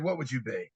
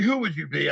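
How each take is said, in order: First: "What" punched, the rest dropping low and soft; stress on WHAT. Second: "Who" hit as the key word, falling after; stress on WHO. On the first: A speaker correcting the question, stressing "What". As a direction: lean on "What" and let it fall away. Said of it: "I said". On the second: A speaker quoting the wrong question, weight on "Who". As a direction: lean on "Who" as if asking which person. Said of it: "I didn't say". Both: Shown as a demonstration.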